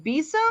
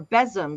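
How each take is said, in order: First: Besom said BEE-sum; long-E besom. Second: Besom said BEZ-um; short-E besom. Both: Shown as a demonstration. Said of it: "someone was saying, uh, is it besom or besom".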